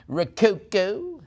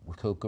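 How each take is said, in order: First: Rococo drawn out slowly, high and loud; showy repeat. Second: Said in the usual way. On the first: Shown as a demonstration. Auctioneer savoring the style name, showy Rococo drawn out high. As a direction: stretch every syllable of Rococo, rising.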